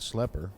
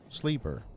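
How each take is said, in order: First: The first vowel is short, like 'eh'. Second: The first vowel is long, like 'ee'. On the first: The speaker calls it wrong. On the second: The speaker calls it right.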